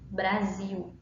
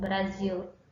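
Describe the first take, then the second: First: The final L sounds like a vowel. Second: The final L is pronounced as a clear L. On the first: This is the Brazilian way of saying it. "aqui no Brasil, um exemplo é que nós não pronunciamos o L" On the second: This is the European Portuguese way of saying it. "em Portugal eles pronunciam Brasil, certo? Eles pronunciam o L"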